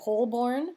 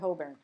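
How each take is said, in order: First: It is pronounced the American way. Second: It is pronounced the local British way.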